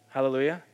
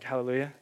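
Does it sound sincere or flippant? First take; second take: sincere; flippant. First: It is said sincerely, meaning it. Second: It is said flippantly, not meaning it.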